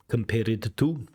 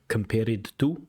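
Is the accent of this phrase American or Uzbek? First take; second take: Uzbek; Uzbek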